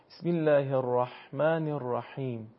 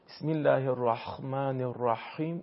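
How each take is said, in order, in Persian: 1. صدای h حلقی سبک و نازک است. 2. صدای h حلقی سخت است، مثل kh. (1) "نه،" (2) "تبدیل به حرف خا بکنه... این اشتباهه"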